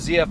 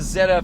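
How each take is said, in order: First: The letter Z is said as zee. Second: The letter Z is said as zed.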